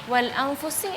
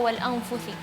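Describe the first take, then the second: First: The consonant is an s sound. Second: The consonant is a th sound.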